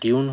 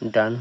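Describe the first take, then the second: First: The vowel sounds like 'yoo'. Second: The vowel sounds like 'ah'. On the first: The speaker calls it right. "ডিউন হলো" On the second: The speaker calls it wrong. "ডান হলো না কেন"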